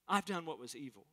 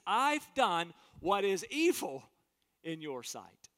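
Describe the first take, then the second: First: Said in the usual way. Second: Earnest confession. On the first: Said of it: "That's coming clean". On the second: Acted. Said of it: "He says".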